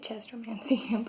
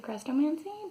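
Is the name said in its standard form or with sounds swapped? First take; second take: swapped; standard. First: The name is said with its sounds swapped around. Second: The name is said in its standard form. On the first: This is the speaker's habitual childhood version. The speaker calls it wrong. "I always pronounce it Chestromancy" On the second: This is the technically correct version. The speaker calls it right. "it's technically Crestomancy"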